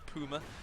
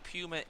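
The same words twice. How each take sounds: First: The word is pronounced the German way. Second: The word is pronounced the English way.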